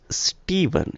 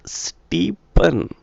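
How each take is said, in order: First: The middle consonant is a v sound. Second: The middle consonant is a p sound. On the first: The speaker calls it right. "The pronunciation, right, dictates Stephen" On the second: The speaker calls it wrong. "if you go with the sound p, the consonant p, for for v, then you're going to be wrong"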